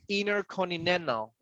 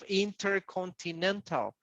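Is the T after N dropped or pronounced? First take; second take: dropped; pronounced. First: The T after the N is dropped. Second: The T after the N is pronounced. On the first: "I'm staying at intercontinental" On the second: "instead of intercontinental"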